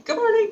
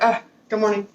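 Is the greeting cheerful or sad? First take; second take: cheerful; sad. First: It is said brightly and cheerfully. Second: It is said hesitantly and sadly.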